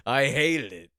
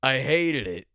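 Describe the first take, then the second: First: Put-on louder gruff old-man pronouncement; old man dad voice. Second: Louder, flat verdict like a grumpy dad; old man dad voice. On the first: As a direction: deliver it like a grumpy dad to the waiter. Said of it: "looks right at the waiter and goes". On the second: Pretend. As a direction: announce it proudly like a forty-year-old father. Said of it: "Then I could say".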